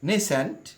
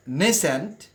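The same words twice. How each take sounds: First: নিসেন্ট said as nee-sent, first vowel i; first pronunciation of নিসেন্ট; nisent variant. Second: নেসেন্ট said slowly as neh-sent, first vowel e; nesent variant, slow. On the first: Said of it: "উচ্চারণটা viewers follow করি". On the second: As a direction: say নেসেন্ট with an e, drawn out. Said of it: "অথবা নেসেন্ট". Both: Shown as a demonstration.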